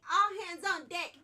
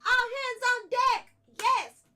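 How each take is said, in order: First: Hype shout. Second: Chanted, much louder, higher, drawn-out rallying cry; chant shout. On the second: Streamer leading the chat in a chant, belting it. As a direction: belt it out slowly like a crowd chant. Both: Real, not acted. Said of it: "Everybody say it with me".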